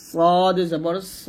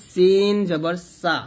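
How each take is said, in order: First: সদ জবর স said thick and heavy, mouth rounded; heavy sad. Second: সিন জবর সা said thin and light; light seen. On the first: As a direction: give স full weight. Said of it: "স মোটা করে বলতে হবে". (মোটা করে সদ জবর স) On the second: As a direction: keep সা thin, no weight. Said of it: "সিন পাতলা". (পাতলা করে সিন জবর সা) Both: Shown as a demonstration.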